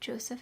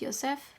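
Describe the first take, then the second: First: The name is said with English pronunciation. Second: The name is said with non-English pronunciation. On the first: "I'm just gonna pronounce it the English way" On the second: "Pretty sure it would be pronounced Joseph"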